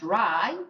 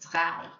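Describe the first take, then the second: First: The R is a smooth English-style sound. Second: The R is a rough sound from the throat. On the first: The speaker calls it wrong. "So not dry" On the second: The speaker calls it right. "the R was a little bit of a kind of throaty sound"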